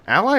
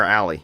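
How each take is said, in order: First: Ally ending in "eye"; Ally rhyming its last syllable with "sky"; alternative pronunciation. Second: Ally ending in "ee"; Ally like the word alley; alternative pronunciation. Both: Shown as a demonstration. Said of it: "Has anyone heard it pronounced".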